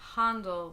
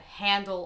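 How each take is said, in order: First: The first vowel is a soft open A. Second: The first vowel is a flat A. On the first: The speaker calls it right. "pronounced Handel with a like soft A sound" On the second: The speaker calls it wrong. "not handle like a broom handle or the handle on a pot"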